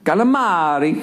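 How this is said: It is said with an Italian accent. The speaker calls it right. "How they said it"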